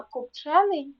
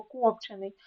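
First: КопЧЕний, stressed on the second syllable, pitched up; копчений with middle stress, higher, as a demo; stress shows meaning. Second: КОПчений, stressed on the first syllable; копчений with initial stress, as a demo; stress shows meaning. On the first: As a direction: lift and hit ЧЕ in копчений. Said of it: "значення слова залежить від наголосу". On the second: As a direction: put the stress at the start of копчений. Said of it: "А ось перше слово". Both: Shown as a demonstration.

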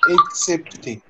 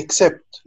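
First: "excepté" slowly, syllable by syllable, ending in é; French pronunciation. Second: "accept" said the English way, ending on the consonants; English pronunciation. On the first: Teacher giving students the French word, slow French pronunciation of "excepté". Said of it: "بس بالفرنسي اسمها". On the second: Teacher comparing with the English word, English pronunciation of "accept". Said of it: "قريبة من الإنجليش". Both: Shown as a demonstration.

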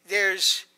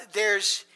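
Both takes have the same delivery.

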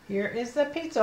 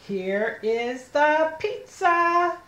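First: Said in the usual way. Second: Slow, high, word-by-word reading; slow model reading. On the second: Shown as a demonstration. Teacher showing children the pizza sentence, slow word-by-word reading. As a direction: stretch each word for a beginning reader. First slow take, then fluent repeat.

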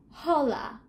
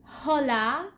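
First: Hola said with no h, starting straight on the o; silent h. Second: Hola with a breathy English h at the start; wrong h sound. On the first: Teacher giving students the correct version, silent h. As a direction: drop the h in Hola. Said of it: "Recuerda, es hola". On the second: Teacher showing students the mistake, h pronounced. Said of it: "I don't want any mistakes like". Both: Shown as a demonstration.

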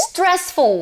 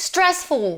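First: High careful demo. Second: Said in the usual way. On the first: Shown as a demonstration. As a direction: announce "stressful" brightly with a fall. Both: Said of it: "stressful เอาไว้ใช้กับ".

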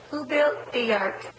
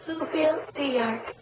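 First: Slow, drawn-out question. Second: Slower questioning. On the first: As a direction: ask it slowly to the baby. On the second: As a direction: ask it again very slowly. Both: Shown as a demonstration. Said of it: "Noah, Noah".

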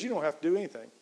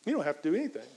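First: "do" carries the weight, falling after; emphasis on "do" as the punch; stress on do. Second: "don't" punched, the rest falls off; emphasis on "don't" as the denial; stress on don't. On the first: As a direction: press on the word do. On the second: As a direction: lean on the word don't. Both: Shown as a demonstration. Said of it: "'Cause the truth is".

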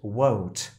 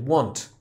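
First: "won't" with a rounded o glide. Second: "want" with a flat, open a. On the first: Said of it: "bo to jest won't". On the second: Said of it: "a to jest want". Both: Shown as a demonstration.

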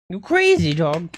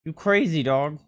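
First: Much higher, louder teasing squeal; squeaky pet voice. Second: Said in the usual way. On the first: Real, not acted. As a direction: squeal fondly at the dog. Repeats squeaky.

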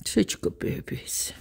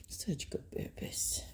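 First: Hushed and softer, voice dropping; soft hushed praise. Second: Whispered, almost silent. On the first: Owner hushing praise to her dogs, softer. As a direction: let it sink to a hush. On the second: Owner whispering praise to her dogs, almost silent. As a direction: barely breathe the words. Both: Real, not acted.

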